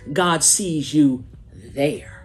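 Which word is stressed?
there. The stress falls on the word there.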